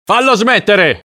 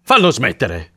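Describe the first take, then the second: First: High, desperate shout; exasperated man's high-pitched yell. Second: Exasperated demand at normal volume; insist, without shouting this time; worn-down, exasperated order; restrained repeated plea. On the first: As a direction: yell it at the end of your patience. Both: A narrator's reading. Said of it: "urlò l'uomo".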